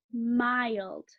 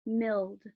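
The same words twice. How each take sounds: First: MILD as drawn-out "MY-ld", slow; long I. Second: MILD misread as "milld", rhyming with "filled"; short I. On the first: Teacher giving the correct word, long I. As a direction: say MILD with i like "eye". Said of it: "it says its name". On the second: Teacher trying a likely misreading, short I. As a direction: say MILD with the i of "milk". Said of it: "I might read it as". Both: Shown as a demonstration.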